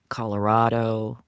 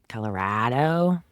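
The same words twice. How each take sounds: First: It uses the pronunciation locals do not use. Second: It uses the pronunciation locals actually use. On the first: This is how outsiders say it. "people here don't say Colorado" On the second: This is how residents say it. "they say Colorado"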